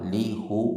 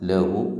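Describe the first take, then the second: First: The first syllable has the vowel i. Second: The first syllable has the vowel a. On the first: This is the underlying original form. "ശരിക്ക് ലി ക ലി ഹു ലി ഹ എന്നാ വേണ്ടത്" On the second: This form is used for easier pronunciation. "ഉച്ചാരണത്തിനാണ് ലാം നാക്കിയത്, ... ഫത്തഹ് കൊടുത്തത്"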